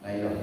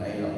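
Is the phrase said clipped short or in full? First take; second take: clipped; clipped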